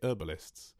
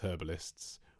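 First: It is said in an American accent. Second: It is said in a British accent.

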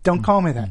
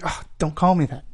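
First: It is said a little louder. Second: It is said fairly quietly.

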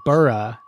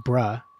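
First: The ending is said like 'burrah'. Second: The ending is said like 'bruh'. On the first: The speaker calls it wrong. "I still added like burrah" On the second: The speaker calls it right. "not bruh"

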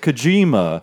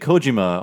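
First: The second syllable carries strong stress. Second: The syllables are evenly weighted without strong stress. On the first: The speaker calls it wrong. "they will accentuate certain syllables in a certain way" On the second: The speaker calls it right. "that's how you say his name"

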